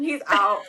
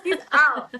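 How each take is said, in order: First: Said in the usual way. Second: Higher, louder, laughing he's out; mock despair. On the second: To a friend, repeating her panic with laughing despair. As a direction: repeat it as a comic, hopeless verdict.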